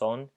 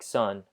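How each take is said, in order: First: The vowel is a pure Spanish 'o' sound. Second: The vowel sounds like the English word 'sun'. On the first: The speaker calls it right. "So the o would be pronounced son" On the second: The speaker calls it wrong. "looks like son, uh, like a daughter or a son"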